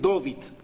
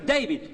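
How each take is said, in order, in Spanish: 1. El nombre se dice con sonido O. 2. El nombre se dice con pronunciación inglesa. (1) "en Yiddish ... me meten O por A" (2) "Los gringos me van a decir"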